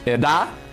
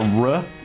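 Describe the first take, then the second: First: The R is a quick tongue tap. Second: The R is a smooth American-style approximant. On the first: "you can pronounce it tapped" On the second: "like in American English, just like a R, like as is normal for me"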